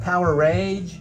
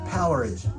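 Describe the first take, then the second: First: The ending is said as the word rage. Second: The ending is not said as the word rage. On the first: This is how other people say it. "other people say it more like Power Rage" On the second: This is how the speaker always says it. "I've always said Powerage"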